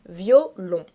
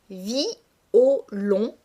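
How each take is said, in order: First: The word is said in two syllables. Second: The word is said in three syllables. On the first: This is the everyday pronunciation. "se prononce dans la vie courante en deux syllabes" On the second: The verse needs twelve syllables. "prononcer distinctement les deux voyelles de la première syllabe"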